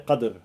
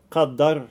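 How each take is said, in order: First: No vowel follows the d sound. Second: A short vowel 'a' follows the d sound. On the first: "att du har sukun på dal" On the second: "att du har fetha på dal"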